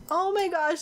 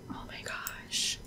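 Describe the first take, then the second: First: Higher, excited oh my gosh; excited exclaim. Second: Breathless whispered oh my gosh; awed whisper. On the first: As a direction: burst out with delight. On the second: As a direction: whisper it in awe, slowly. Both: Real, not acted. Awed reaction to the park.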